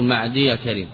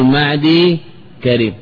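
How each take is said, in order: First: The first word ends in ya with short a. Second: The first word ends in a silent y. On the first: The speaker calls it wrong. "ولا تقول" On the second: The speaker calls it right. "فإن كان معتلا حينئذ سكنا، فنقول"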